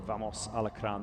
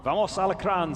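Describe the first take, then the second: First: Said in the usual way. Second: Loud, higher rallying cry read out; fan cheer. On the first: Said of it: "[name] also". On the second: Retold or imitated. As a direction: shout it like a fan in the stands. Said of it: "says Samuel Cortez".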